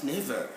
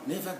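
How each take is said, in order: First: The final R sound is pronounced. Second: The final R sound is silent. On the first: The speaker calls it wrong. "Not never" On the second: The speaker calls it right. "No, never go alone outside"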